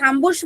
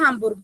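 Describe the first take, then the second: First: The word ends with a soft ch sound. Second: The word ends with a hard g sound. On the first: "हामबुर्श बोल लो या हामबुर्ग, दोनों प्रोनाउंसिएशन है" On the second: "दोनों प्रोनाउंसिएशन है"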